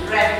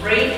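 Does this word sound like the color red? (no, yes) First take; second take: yes; no. First: It sounds like the color red. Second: It does not sound like the color red. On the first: It is the past tense. "read in past. Yes, read like the color" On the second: It is the present tense. "Read in present"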